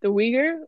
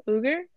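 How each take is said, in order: First: "Uyghur" said as WEE-gur; "Uyghur" tentatively as WEE-gur, rising; unsure pronunciation. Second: "Uyghur" said as OO-gur; "Uyghur" tentatively with an oo start, OO-gur, rising; unsure pronunciation. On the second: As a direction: try "Uyghur" as OO-gur, like a question. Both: Shown as a demonstration. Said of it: "I'm not gonna pronounce it correctly".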